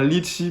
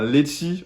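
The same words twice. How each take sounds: First: "litchi" said as li-chi; standard French. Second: "lechi" said as le-chi, with e instead of i; Réunion Creole. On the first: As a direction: say "litchi" as mainland French does. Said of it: "on dit pas un litchi". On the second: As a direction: give "lechi" the Creole e sound. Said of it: "mais un lechi". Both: Shown as a demonstration.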